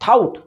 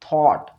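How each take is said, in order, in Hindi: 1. स्वर 'out' में 'ow' की तरह फिसलता है। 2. स्वर एक स्थिर 'aw' ध्वनि है। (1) "लेकिन बहुत सारे लोग इसको क्या पढ़ते हैं?" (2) "थाउट तो थाउट नहीं होता है, ये क्या होता है?"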